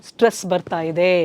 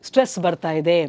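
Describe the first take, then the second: The two takes are said the same way.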